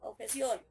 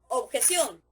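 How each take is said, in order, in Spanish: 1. La palabra se dice en voz baja, en tono bajo. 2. La palabra se dice en voz alta y con fuerza. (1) "en voz baja" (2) "decimos bien fuerte"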